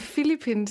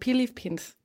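First: It is pronounced the usual Danish way. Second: It is pronounced the way a Filipino says it. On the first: The speaker calls it wrong. "som vi siger, det er forkert" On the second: The speaker calls it right. "Det hedder Philippines"

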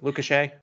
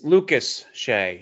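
First: The name is rushed, with the sounds running together. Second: The name is said carefully, with each sound clear. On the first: The speaker calls it wrong. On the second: The speaker calls it right.

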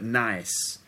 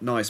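First: The word is said in a slangy London accent. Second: The word is said in a neutral standard accent. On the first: "That sort of slang London way of saying nice" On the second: "It's not nice"

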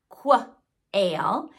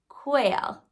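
First: The word begins with a 'kuh' sound and schwa. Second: The word begins with a clipped 'koo' sound. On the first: The speaker calls it wrong. "it's not qua-ail" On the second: The speaker calls it right. "So it's much more like k, ooh, coo, quail"

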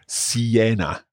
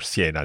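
First: The word is said in three syllables. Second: The word is said in two syllables. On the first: This is how English speakers tend to say it. The speaker calls it wrong. "we tend to say Siena, 3 syllables" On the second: This is how Italians say it. The speaker calls it right. "but no, Siena or Siena"

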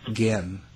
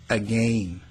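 First: It is said the non-Canadian way, vowels reduced. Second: It is said the Canadian way, every vowel full. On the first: "it's not again" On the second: "Canadians say again"

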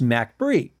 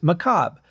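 First: The word ends with a 'bree' sound. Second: The word ends with a 'bruh' sound. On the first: "in the song, it's pronounced MacBree" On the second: "I always thought it was pronounced macabre"

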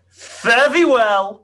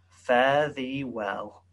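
First: It is shouted loudly. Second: It is said at a normal, quiet volume.

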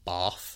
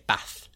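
First: The word is said in an RP accent. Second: The word is said in a Yorkshire accent. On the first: "In RP, it's bath" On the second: "if in a Yorkshire accent, they would in lots of places say bath"

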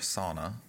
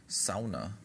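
First: It is said with an American pronunciation. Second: It is said with a Finnish pronunciation.

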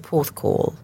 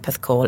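First: It is said in a careful, posh way. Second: It is said in a relaxed, casual way.

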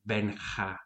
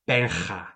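First: The h-like rasp in the name is light. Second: The h-like rasp in the name is loud and heavy. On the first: The speaker calls it right. "that's much better" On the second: The speaker calls it wrong. "That's a lot"

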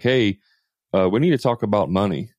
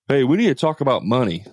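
First: It is said in a calm, neutral tone. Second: It is said in an angry, irritated tone.

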